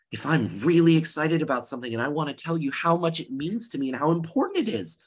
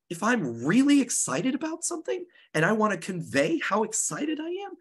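First: A bit quicker, eager and lively; speeding up with excitement. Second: Much higher, excited voice; raised pitch. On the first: Teacher showing students excited speech, speaking faster. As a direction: rush it a little to show excitement. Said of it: "I might speed up my pitch". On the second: Teacher demonstrating excited delivery to the class, pitched high. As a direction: lift the pitch way up to sound thrilled. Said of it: "I might raise my pitch". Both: Shown as a demonstration.

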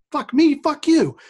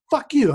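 First: High, slow, mocking comeback; mock retort. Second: A high, mock-angry snap; retold insult. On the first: Teen answering Brian's insult, slow high mock anger. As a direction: stretch out the retort to mock him. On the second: Brian confronts him in the hallway, high mock anger. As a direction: fling the insult back as the kid did.

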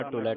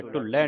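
First: ਢੁਲੈ said dhu-lai, light single l; soft reading. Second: ਢੁਲੈ said dhul-lai, doubled l; wrong hard reading. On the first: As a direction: keep the l in ਢੁਲੈ short and light. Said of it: "ਇਹਨੂੰ ਪੋਲਾ ਪੜ੍ਹਨਾ". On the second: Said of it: "ਢੁਲੈ ਨਹੀਂ ਪੜ੍ਹਨਾ". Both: Shown as a demonstration.

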